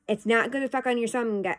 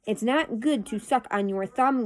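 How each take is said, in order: First: "It's not good to suck on your thumb" run together, tripping into "gu-"; tongue-tied. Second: Measured, more separated words after a stumble; careful retake. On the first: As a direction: rush "suck on your thumb" and stumble after it. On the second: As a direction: say it over deliberately, word by word. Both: Real, not acted. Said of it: "I can't talk again".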